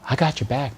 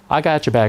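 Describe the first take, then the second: First: It is said in a seductive, tender tone. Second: It is said in a casual, buddy-like tone.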